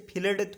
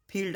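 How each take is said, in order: First: फील्ड broken into "fi-lad" with an extra vowel; mispronunciation demo. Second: Said in the usual way. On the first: Shown as a demonstration. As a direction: say फील्ड wrongly as two syllables, "fi-lad". (फील्ड को गलत ढंग से "फिलड" बोलें) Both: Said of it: "अब इसे फील्ड थोड़ी बोलेंगे".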